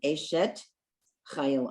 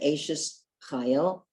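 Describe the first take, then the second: First: The first word ends with a t sound. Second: The first word ends with an s sound. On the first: This is the Hebrew pronunciation. "in um, Hebrew it would be Eshet Chayil" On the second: This is the Yiddish-style pronunciation. "Some people say Eshes Chayil"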